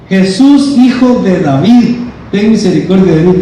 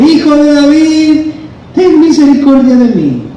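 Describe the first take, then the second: First: Raised-pitch plea easing off and speeding up; mild mock yell, quickening at the end; half-shouted beggar's appeal; acted crying out. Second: Very high, sustained cry for mercy; insistent acted yell. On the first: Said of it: "y gritaba". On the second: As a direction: call out desperately as the blind beggar, pitch way up. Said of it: "gritaba más fuerte".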